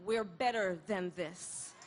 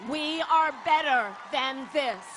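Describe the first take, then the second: First: Said in the usual way. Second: ARE leaned on, louder; We "are" better than this, are hit louder; stress on ARE. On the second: Shown as a demonstration. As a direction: punch the word are, firmly.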